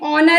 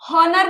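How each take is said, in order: First: The word begins with a vowel sound. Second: The word begins with an h sound. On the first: The speaker calls it right. "एच silent है again" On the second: The speaker calls it wrong. "हॉनर नहीं है ये"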